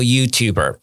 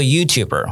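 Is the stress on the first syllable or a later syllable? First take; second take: later; first. First: The stress is on a later syllable. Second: The stress is on the first syllable. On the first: The speaker calls it wrong. "我不是说YouTuber" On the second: The speaker calls it right. "我说YouTuber"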